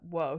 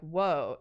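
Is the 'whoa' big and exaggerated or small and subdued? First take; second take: subdued; exaggerated. First: It is said small, quiet and restrained. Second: It is said big, loud and theatrical. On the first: The reaction is realistic but less legible. "instead of being like a" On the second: The reaction is pushed for readability. "a big almost like stage sort of like"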